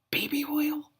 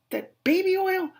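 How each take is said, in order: First: High voiceless whisper of disbelief; stunned whisper. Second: Very high incredulous squeak; squeaky disbelief. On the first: Reader whispering the phrase in disbelief. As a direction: breathe it in shock. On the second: Reader squeaking at the book's baby oil. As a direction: shriek the question in disbelief. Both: Real, not acted.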